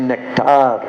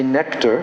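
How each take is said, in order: First: It is said with a Russian pronunciation. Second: It is said with an English pronunciation. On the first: "you say nectar" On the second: "We say nectar"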